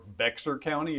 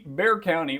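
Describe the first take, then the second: First: The name is said the way outsiders say it. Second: The name is said the way locals say it.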